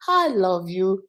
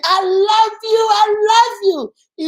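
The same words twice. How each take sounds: First: Soft, tender I love you; sweet and soft. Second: High, slow, loving shout; sweet scream. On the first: Parent showing viewers a soft sweet I love you. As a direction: say it gently, sweetly. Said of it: "it's sweet". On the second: Parent demonstrating a sweet loving scream to viewers. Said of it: "you're sweet and you're screaming it". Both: Shown as a demonstration.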